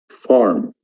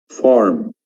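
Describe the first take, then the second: Both takes have the same delivery.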